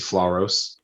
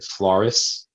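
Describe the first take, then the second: First: The final syllable sounds like 'oss'. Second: The final syllable sounds like 'iss'. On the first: The speaker calls it right. "but it's actually Floros" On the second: The speaker calls it wrong. "people will call it Floris"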